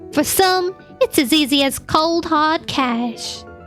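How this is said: It is spoken in a Southern American accent.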